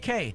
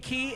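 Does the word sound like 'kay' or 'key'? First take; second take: kay; key. First: The word rhymes with 'say'. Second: The word rhymes with 'see'. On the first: "it could be K" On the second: "It could be key"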